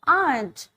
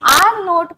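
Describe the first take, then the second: First: It is said as one short word, weak r. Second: It is said as two full separate words. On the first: "र का sound बहुत ज्यादा नहीं बोलना है" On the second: "आर नोट को"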